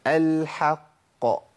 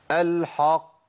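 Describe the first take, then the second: First: Slow الحق with a thin vowel before the heavy ق; drawn-out الحق, front vowel after ح; correct light ح. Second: الحق with the ح thickened ahead of the ق; heavy, backed الحق; faulty heavy ح. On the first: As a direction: keep ح in الحق light, then release the ق. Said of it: "لكن عندنا في القرآن". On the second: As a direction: darken the vowel after ح in الحق. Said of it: "بستعد لتفخيم". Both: Shown as a demonstration.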